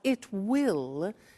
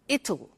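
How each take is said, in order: First: It is said in full as two words. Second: It is contracted into one short word.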